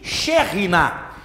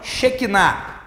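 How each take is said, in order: First: The middle consonant is a throaty h sound. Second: The middle consonant is a hard k sound. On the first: The speaker calls it right. "e sim Sherinah" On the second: The speaker calls it wrong. "a pronúncia correta não é Shekinah"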